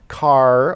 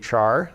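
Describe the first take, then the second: First: It begins with a k sound, like car. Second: It begins with a ch sound, like char. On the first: It follows the sound of character. "some people actually pronounce this car" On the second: It follows the spelling. "Most people just say char"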